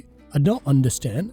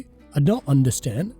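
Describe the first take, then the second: First: The t in don't is held with a break. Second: The same.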